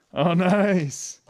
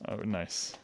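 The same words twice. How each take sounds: First: Bursting into a delighted laugh; excited laugh. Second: Said in the usual way. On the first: Real, not acted. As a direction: laugh it out, thrilled. Tastes the gift, delighted.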